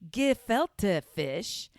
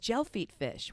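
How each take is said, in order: First: The first word sounds like 'gefilte'. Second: The first word sounds like 'gel feet'. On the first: The speaker calls it right. "not gel feet fish" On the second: The speaker calls it wrong. "I didn't even know how to pronounce it"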